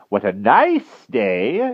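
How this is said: It is said in a soft, caressing tone.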